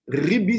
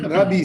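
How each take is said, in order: First: The first vowel is an i sound. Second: The first vowel is an a sound. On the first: It means my master. "Ribi, ça veut dire mon Rav, mon maître" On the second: It shows the speaker is not Karaite. "Rabbi, ça veut dire il n'est pas karaïte"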